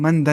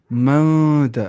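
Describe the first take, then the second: First: Said in the usual way. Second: Louder "من", held long in the nose before "دا"; nasal ikhfa. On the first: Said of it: "لیکن من دا نہیں پڑھیں گے". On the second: Shown as a demonstration. Teacher gives the right reading, long nasal ikhfa. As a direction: hum out "من", then release a short "دا". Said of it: "ہم کیا پڑھیں گے؟".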